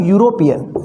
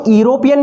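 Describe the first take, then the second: First: यूरोपियन starting with a clear yu sound; यूरोपियन, begin with yu as in you; correct pronunciation. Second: यूरोपियन starting on a plain vowel, no y sound; यूरोपियन said like iropian; wrong pronunciation. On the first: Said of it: "इसको क्या बोलेंगे हम". (यूरोपियन, शुरू में साफ़ यू की आवाज़ के साथ) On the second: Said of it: "इसको यूरोपियन नहीं बोलेंगे". (यूरोपियन, शुरू में यू की आवाज़ के बिना) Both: Shown as a demonstration.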